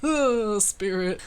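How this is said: The whoo sounds like a drunken cheer. It refers to alcohol. "I was pretending like I was drunk"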